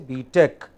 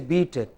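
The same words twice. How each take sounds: First: The stress is on the second syllable. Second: The stress is on the first syllable. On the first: The speaker calls it right. "Stress on the second" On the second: The speaker calls it wrong. "Do not say"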